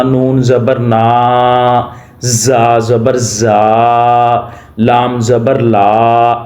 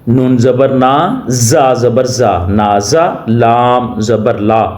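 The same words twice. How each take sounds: First: Drawn-out slow spelling; stretched out, wrong way. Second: Said in the usual way. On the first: Shown as a demonstration. Teacher shows the wrong way to spell, dragging it slowly. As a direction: drag each syllable too long on purpose. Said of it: "ایسے نہیں کرنا". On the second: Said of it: "ایسے نہیں کرنا۔".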